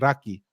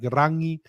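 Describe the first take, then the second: First: The middle consonant is a k sound. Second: The middle consonant is an ng sound. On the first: This is the South Island dialect. "the South substitute it for K like" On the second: This is the North Island dialect. "The North pronounce N G like"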